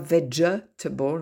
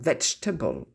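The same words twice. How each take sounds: First: The second E is pronounced as a syllable. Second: The second E is dropped entirely. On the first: The speaker calls it wrong. "on ne dit pas vegetable" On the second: The speaker calls it right. "Pareil pour le deuxième E dans vegetable"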